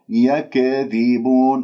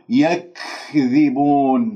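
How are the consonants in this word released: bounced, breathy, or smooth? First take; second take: bounced; breathy. First: The consonant is released with an echoing bounce. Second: The consonants are released with exaggerated breathiness. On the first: "هنالك من يقلقل يكذبون، هذه أيضا خطأ" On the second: "هنالك من يبالغ يقول يكذبون، هذه مبالغة في الهمس"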